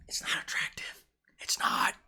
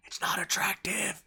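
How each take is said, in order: First: Soft secretive whisper to the ladies; whispered verdict. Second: Said in the usual way. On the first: Real, not acted. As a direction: whisper "it's not attractive" almost without voice. Confiding judgement to viewers.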